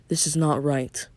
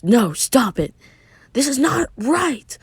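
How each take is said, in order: First: Said in the usual way. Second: Raised, high-pitched refusal; protesting cry. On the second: Acted. Narrator voices a character refusing firmly, protesting cry. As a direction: cry out in protest, stretching the last words.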